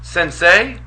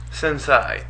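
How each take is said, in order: First: Sensei as sen-SAY, rising like a question; higher, questioning sensei rhyming with "say"; correct sensei. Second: Sensei as sen-SIGH, falling; softer sensei rhyming with "sigh"; mispronounced sensei. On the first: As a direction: offer sensei ending in "say". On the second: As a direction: offer sensei ending in "sigh". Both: Shown as a demonstration. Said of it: "so we can have some public opinion".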